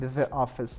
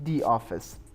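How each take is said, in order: First: The word 'the' has a short 'thuh' vowel. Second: The word 'the' has a long 'thee' vowel. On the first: The speaker calls it wrong. "ما دیگه نمیگیم" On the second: The speaker calls it right. "میگیم دی آفیس"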